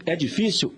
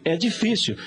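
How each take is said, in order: First: "É difícil?" asked as a question, tune rising at the end; "É difícil?" with a questioning rise on "difícil"; rhetorical question. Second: "É difícil" said as a firm answer, tune falling on "difícil"; "É difícil" as a statement, falling on "difícil". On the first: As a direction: pose "É difícil?" to the listener, lifting the last word. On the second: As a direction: answer your own question with "É difícil", settling down at the end. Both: Shown as a demonstration.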